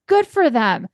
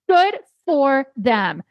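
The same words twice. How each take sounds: First: Said in the usual way. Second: "Good for them" slow and high, leaning on "Good" with a falling end; emphatic approval. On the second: Real, not acted. Speaker cheering the woman who walked out, slow emphatic. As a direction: draw out "Good for them" as praise.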